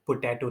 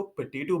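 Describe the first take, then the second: First: पोटैटो with full "po", poh-TAY-toh; the common wrong potato. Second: पोटैटो with schwa first, puh-TAY-toh; potato with weak first vowel; correct potato. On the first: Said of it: "पोटैटो नहीं". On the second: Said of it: "इसको पोटैटो बोलना". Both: Shown as a demonstration.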